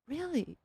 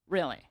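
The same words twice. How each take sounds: First: It sounds amazed and full of disbelief. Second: It sounds unimpressed and dismissive. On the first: The speaker humbly cannot believe the compliment. The speaker calls it right. "Like he he couldn't believe it" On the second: The speaker does not care about the compliment. The speaker calls it wrong. "I'm kidding. He did not say it like that"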